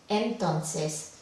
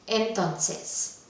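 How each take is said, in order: Both takes have the same delivery.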